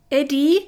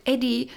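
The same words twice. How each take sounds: First: High, loud panicked shout. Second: Plaintive call, pitched up; whining. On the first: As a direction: cry out his name in alarm. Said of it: "schrie ich". (laut und hoch schreiend) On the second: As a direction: whimper his name like a frightened man. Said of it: "jammerte ich". (jammernd, kläglich rufend) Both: Acted.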